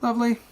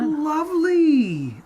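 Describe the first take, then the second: First: It is said flatly, without enthusiasm. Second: It is said with lively enthusiasm.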